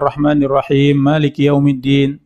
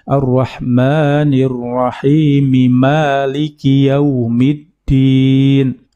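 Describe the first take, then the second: First: Rahim ends without any added vowel. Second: Rahim ends in an added i sound. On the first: The speaker calls it wrong. "sambung tapi tidak dibaca ini seharusnya uh, tidak boleh" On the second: The speaker calls it right. "Ar-Rahmanir Rahimi harusnya harokatnya kalau mau disambung"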